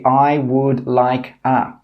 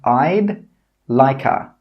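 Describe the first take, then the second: First: Each word is said separately and fully. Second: The words are contracted and joined together. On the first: The speaker calls it wrong. "we don't say" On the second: The speaker calls it right. "We put that all together and we say"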